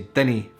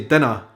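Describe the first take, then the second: First: The word ends with an 'ee' vowel. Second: The word ends with an 'uh' vowel. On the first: This is how older people in Edinburgh say it. "in Edinburgh, when I've heard people say it, the older generations, they would say dinny fash yourself" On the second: This is the usual form heard elsewhere. "they wouldn't say dinna fash yourself"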